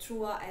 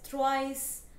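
First: It is said with a French sound. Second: It is said with an English-like sound. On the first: The speaker calls it right. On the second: The speaker calls it wrong.

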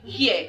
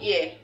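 First: It is said with a Yoruba/Hausa accent. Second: It is said with a standard accent.

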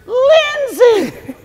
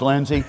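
First: The vowel is stretched out in a high pitch. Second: The name is said plainly with short vowels. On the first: The baby can hear these sounds in the womb. The speaker calls it right. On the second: The baby cannot hear these sounds in the womb. The speaker calls it wrong.

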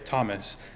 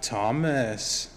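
First: The pitch peaks on the first syllable. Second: The pitch peaks on the second syllable. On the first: "you would expect someone to say Thomas" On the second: "not Thomas"

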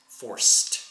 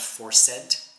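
First: The -ed ending is smooth and blended. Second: The -ed ending sounds forced, not smooth. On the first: The speaker calls it right. "make the end of words smooth with ed" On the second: The speaker calls it wrong. "not forced"

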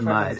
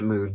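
First: The vowel is short, like in 'cup'. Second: The vowel is long, like in 'food'. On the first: The speaker calls it right. "it's mud, and it's always been mud" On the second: The speaker calls it wrong. "if you pronounce it mood, get off the internet"

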